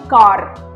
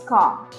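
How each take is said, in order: First: The final R sound is pronounced. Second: The final R sound is dropped. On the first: The speaker calls it wrong. "It's not actually car" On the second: The speaker calls it right. "in British English, try to drop your R's"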